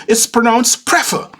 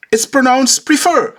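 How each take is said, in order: First: Prefer said as PREF-er, stress first; the second arguer countering with PREF-er; pronounced the other way. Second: Prefer with a long ee, stress on fer; the first arguer insisting on pree-FER; pronounced one way. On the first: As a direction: says prefer with a short e, PREF-er. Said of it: "The other countered". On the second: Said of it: "One said". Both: Retold or imitated.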